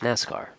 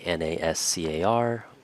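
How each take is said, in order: First: It is said as a single word. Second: Each letter is said separately. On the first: "we often pronounce it as NASCAR" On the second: "Instead of saying"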